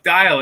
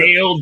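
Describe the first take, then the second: First: The name is said to rhyme with 'dial'. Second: The name is said to rhyme with 'Dale'. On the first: The speaker calls it right. "look, the sundial, like dial" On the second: The speaker calls it wrong. "I get so many different ones"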